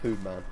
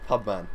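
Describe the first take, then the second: First: The name has no b sound: Poohman. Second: The name has a clear b sound: Pubman. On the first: The speaker calls it wrong. "not Poohman" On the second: The speaker calls it right. "Pubman, not Poohman"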